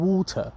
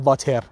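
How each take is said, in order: First: "ووتر" as WAW-tuh, rounded W, no final R; correct "water". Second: "واتر" as VAH-ter, with V and hard T; wrong "water". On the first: Teacher modelling correct pronunciation, British-style "water". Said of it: "بگم ووتر یا بگم وایر". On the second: Teacher showing pronunciation to avoid, "water" with a V. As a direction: say "واتر" with a Persian V start. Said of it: "من نگم واتر". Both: Shown as a demonstration.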